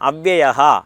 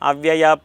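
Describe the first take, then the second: First: The word ends with a breathy h sound. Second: The word ends on a plain vowel. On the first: The speaker calls it right. "അവിടെ വിസർഗമുണ്ട്" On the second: The speaker calls it wrong. "അതെങ്ങനെയാണ് നാം ഈ യൂട്യൂബിലെല്ലാം കേട്ടിട്ടുള്ളത്?"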